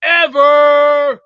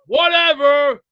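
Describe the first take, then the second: First: A long loud scornful "Whatever" stretched slow; drawn-out dismissive whatever. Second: A quicker, shorter "Whatever" clipped off; curt dismissive whatever. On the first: Streamer brushing off a troll comment, loud and scornful. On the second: Streamer repeating his brush-off to chat, quicker. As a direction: toss it away fast this time. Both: Real, not acted.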